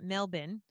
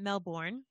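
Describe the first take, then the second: First: Melbourne is said with an Australian pronunciation. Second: Melbourne is said with an American pronunciation. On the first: The speaker calls it right. "people actually in Australia call it Melbourne" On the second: The speaker calls it wrong. "we were corrected last week for calling it Melbourne"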